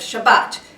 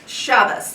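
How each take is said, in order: First: Sephardic pronunciation, ending in a t sound. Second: Ashkenazi pronunciation, ending in an s sound. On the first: The speaker calls it wrong. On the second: The speaker calls it right.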